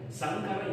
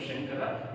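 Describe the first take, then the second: First: The word begins with a plain 's' sound. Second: The word begins with an 'sh' sound. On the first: The speaker calls it wrong. "if you say Sankara instead of Shankara, it gives a different meaning" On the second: The speaker calls it right. "instead of Shankara"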